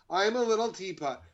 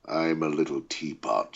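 First: Said in the usual way. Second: Very deep, menacing villain read of a nursery rhyme; sing-song rhyme turned into a deep threat; villainous voice. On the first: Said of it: "I guess that'll have to do". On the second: Shown as a demonstration. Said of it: "could you say something silly in it for us".

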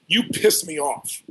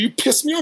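First: Drawn out, deadpan and blunt; a flat, slow jab from the rich man; slow blunt accusation. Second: The rich man's jab, retold excitedly high; high animated retelling. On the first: Retold or imitated. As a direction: lay the accusation down slowly, no heat. Rich man confronts him on jet. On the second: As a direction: replay the jab up high, lively.

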